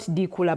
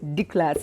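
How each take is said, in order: First: A vowel is heard between the k and l. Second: No vowel is heard between the k and l. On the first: The speaker calls it wrong. "is not dikula" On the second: The speaker calls it right. "but dikla"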